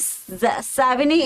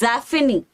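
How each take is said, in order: First: The middle consonant is a V sound. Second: The middle consonant is an F sound. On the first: The speaker calls it wrong. "we really do not say Savigny" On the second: The speaker calls it right. "There is no V. It's actually F"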